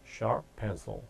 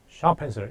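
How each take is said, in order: First: The p of sharp is held, with a brief pause. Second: The p of sharp is fully released. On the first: The speaker calls it right. "살짝 씌워주는 동안에 ... P 하나를 그 쉬는 동안에 들었다고 착각하는 거죠" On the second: The speaker calls it wrong. "이게 아니라"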